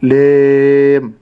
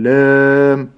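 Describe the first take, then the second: First: The long vowel is tilted toward an e sound. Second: The l and vowel sound thick and heavy. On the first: "عدم إمالة المد، فلا أقول لام" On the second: "أو تفخيم اللام لام"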